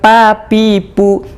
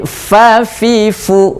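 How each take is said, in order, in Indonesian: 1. Setiap konsonan dibuat dengan kedua bibir tertutup. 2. Setiap konsonan dibuat dengan gigi menyentuh bibir. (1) "Bukan pa pi pu. Kalau pa pi pu nanti tidak keluar udara" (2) "Bukan papa tapi fa fi fu ya"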